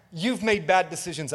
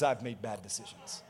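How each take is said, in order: First: Said in the usual way. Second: Much softer and lower; quiet admission. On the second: Real, not acted. Preacher admits his own fault to the congregation, quiet aside. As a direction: drop it to a low confessional aside. Confesses the same, dropping his voice.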